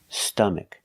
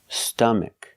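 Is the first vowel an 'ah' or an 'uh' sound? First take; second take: uh; uh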